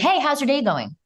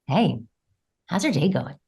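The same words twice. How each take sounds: First: It sounds plainly friendly and polite. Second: It sounds suggestive, with an adjusted tonality. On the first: Just being nice. "how to say something as a as a nice guy" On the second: It signals desire beneath the words. "express your desire and express sexual appeal"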